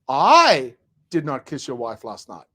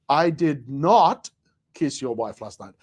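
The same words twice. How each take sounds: First: The stress falls on the word I. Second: The stress falls on the word not.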